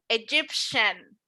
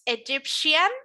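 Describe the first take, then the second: First: The ending is a short 'shun' with no extra vowel. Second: The ending has an extra 'ee' vowel: 'shee-an'. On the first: The speaker calls it right. "como si no tuviera la I" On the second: The speaker calls it wrong.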